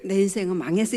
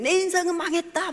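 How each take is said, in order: First: Said in the usual way. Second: Much higher, imitating a daughter crying it out for all to hear; loud mock wail. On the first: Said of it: "이런 게 아니에요". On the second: Mother imitates daughter declaring her life ruined, loud. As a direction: throw it out loud so the whole house hears. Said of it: "막 이러는 거예요. 크게. 다 들리도록".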